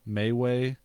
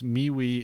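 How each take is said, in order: First: Both syllables have an 'ay' vowel. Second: Both syllables have an 'ee' vowel. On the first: The speaker calls it wrong. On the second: The speaker calls it right.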